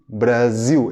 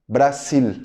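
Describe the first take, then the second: First: The middle consonant is a voiced z sound. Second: The middle consonant is a voiceless s sound. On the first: "a pronúncia correta de Brasil" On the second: "como se fosse dois S's"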